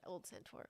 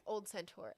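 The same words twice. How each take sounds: First: Whispered almost without voice. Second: Said in the usual way. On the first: Shown as a demonstration. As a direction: breathe it out as a soft whisper. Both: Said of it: "hang on a second".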